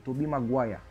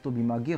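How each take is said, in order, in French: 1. Le nom est prononcé à l'anglaise. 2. Le nom est prononcé à la française. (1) "Non, c'est Tobey Maguire. On respecte la prononciation" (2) "il y en a, ils disent Tobey Maguire"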